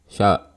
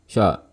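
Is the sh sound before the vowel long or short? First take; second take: short; short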